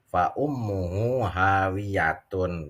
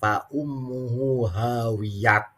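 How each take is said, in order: First: The last word ends in a full tun sound. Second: The last word ends in a t sound. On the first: The reader continues into the next verse. The speaker calls it right. "wasol, ... benar" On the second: The reader is reading from a Latin transliteration. The speaker calls it wrong. "Kalau diberhentikan, jangan"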